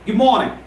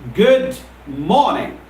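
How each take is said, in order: First: The two words run together as one. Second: The two words are said separately. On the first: The speaker calls it right. "I treat them as a single word, and the correct pronunciation is" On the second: The speaker calls it wrong. "It's not good morning, because I never treat them as two different words"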